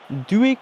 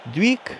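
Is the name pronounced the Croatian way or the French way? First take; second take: French; French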